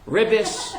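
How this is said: The word ends with an S sound.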